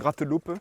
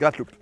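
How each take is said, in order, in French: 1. Chaque syllabe est articulée avec soin et distinctement. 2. Le mot est dit rapidement, avec des syllabes réduites. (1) "soit je la fais en articulant" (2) "soit je dis gratteloupe"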